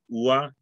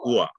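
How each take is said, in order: First: The first vowel is drawn out longer. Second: The first vowel is said short and clipped. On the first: The speaker calls it wrong. "instead of saying" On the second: The speaker calls it right. "you say"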